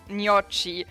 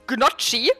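First: The word begins without any G sound. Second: The word begins with a hard G sound. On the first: "but without the G" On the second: "as uh, Germans like to call them normally"

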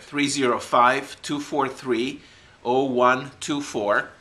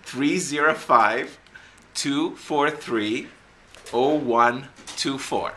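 First: The number is read at normal speed. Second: The number is read more slowly.

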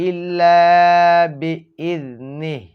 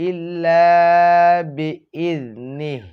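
The two takes are said the same way.

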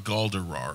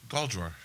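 First: An extra vowel is inserted after the d. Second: The d runs straight into the r. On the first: The speaker calls it wrong. "There's not an extra E. It's not Galdarar" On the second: The speaker calls it right. "Just like it's spelled"

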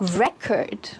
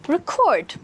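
First: The stress is on the first syllable. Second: The stress is on the second syllable. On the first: It is used as a noun. "this one here is a noun" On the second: It is used as a verb. "this one here is a verb"

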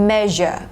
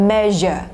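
No difference in how they are said.

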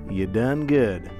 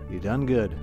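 First: It is said in a Southern accent. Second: It is said in his plain accent.

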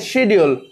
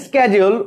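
First: It is said with a British pronunciation. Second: It is said with an American pronunciation. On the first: The speaker calls it right. "we say schedule" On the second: The speaker calls it wrong. "We don't say schedule"

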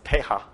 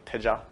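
First: The middle consonant is a throaty H-like sound. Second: The middle consonant is a light J sound. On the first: "pronounced with a Spanish accent as teja" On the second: "in Sanskrit it's usually with a J, with a very slight J"

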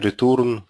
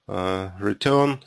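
First: It is said with a Russian pronunciation. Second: It is said with an English pronunciation.

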